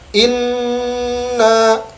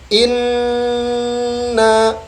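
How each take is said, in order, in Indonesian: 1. Huruf nun ganda dipotong pendek tanpa dengung hidung yang penuh. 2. Huruf nun ganda ditahan dengan dengung hidung yang penuh. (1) "jangan sampai membacanya inna, tidak tidak boleh seperti ba" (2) "neken dulu, ya, masukkan ke hidung dengan sempurna"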